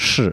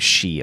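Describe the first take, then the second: First: The vowel is a buzzy, r-like sound. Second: The vowel is a clear 'ee' sound. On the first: The speaker calls it right. "but it's actually pronounced sh" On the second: The speaker calls it wrong. "People say she a lot"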